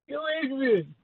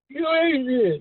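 First: It is said quietly. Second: It is said loudly.

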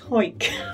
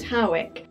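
First: The name is said with one syllable. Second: The name is said with two syllables. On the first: This is how locals say it. "people from Hoik tend to call it Hoik" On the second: This is how outsiders say it. "some people pronounce it Howick"

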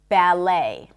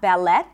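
First: The T sound is silent. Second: The T sound is pronounced. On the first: The speaker calls it right. "But in English, ballet" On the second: The speaker calls it wrong. "Not ballet"

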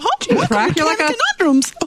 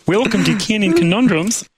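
First: It is said in a Mickey Mouse voice. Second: It is said in a Kermit the Frog voice. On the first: "Mickey Mouse" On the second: "Kermit the Frog here"

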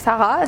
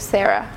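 First: The name is said with a French pronunciation. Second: The name is said with an American pronunciation. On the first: This is how the name was said in France. "in France, it was like Sarra" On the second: This is how the name was said in the US. "when I used to live in the US, it was Sarra"

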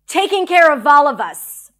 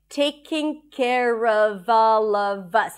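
First: The voice sounds angry and intense. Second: The voice sounds calm and neutral. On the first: "And with anger or whatever strong emotion that comes up" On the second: "first, let's get comfortable with the pronunciation"

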